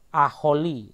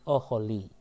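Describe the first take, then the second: First: The first vowel is an 'a'. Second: The first vowel is a short 'o'. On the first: The speaker calls it wrong. "bukan aholi" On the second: The speaker calls it right. "dibaca O, sehingga kata ini dibaca oholi"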